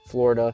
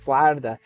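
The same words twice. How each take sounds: First: The word is said with an American pronunciation. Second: The word is said with a Russian pronunciation. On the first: "turn on their American accent, right, and say Florida" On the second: "we don't pronounce Florida as Florida. It's more like Florida"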